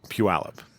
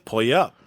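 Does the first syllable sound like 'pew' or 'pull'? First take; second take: pew; pull. First: The word starts with 'pew', like 'pew-AL-up'. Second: The word starts with 'pull', like 'pulley up'. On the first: The speaker calls it right. "It's really" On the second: The speaker calls it wrong. "I pronounced it pulley up"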